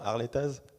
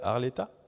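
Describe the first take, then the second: First: The name ends with a final z sound. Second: The name ends without a final z sound. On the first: The speaker calls it right. "Avec le Z" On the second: The speaker calls it wrong. "on ne prononce pas les Z"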